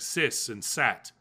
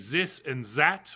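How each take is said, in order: First: It is said with an S sound for TH. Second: It is said with a German-style TH sound. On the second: "like Germans say this and that"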